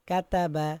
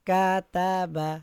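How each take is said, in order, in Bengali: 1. হরকতগুলো ছোট আর দ্রুত পড়তে হয়। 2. হরকতগুলো লম্বা করে টেনে পড়তে হয়। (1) "হরকতের উচ্চারণ তাড়াতাড়ি পড়তে হয়" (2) "কোনো টান দেওয়া যাবে না। কাতাবা হবে না।"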